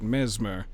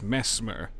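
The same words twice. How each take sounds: First: The first syllable does not sound like mess. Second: The first syllable sounds like the word mess. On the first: It sounds cool. "I want to pronounce it Mesmer, because that's cool" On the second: It sounds like someone messy. "two S's makes me think that it's Mesmer, and that just sounds like he he's very dirty"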